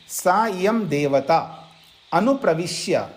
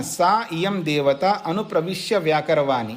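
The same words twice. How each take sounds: First: सा इयं देवता अनुप्रविश्य spaced out slowly, each word set apart. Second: Said in the usual way. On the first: Shown as a demonstration. Teacher slowly spells out the Sanskrit phrase for students, slow and separated. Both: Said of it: "देखिए".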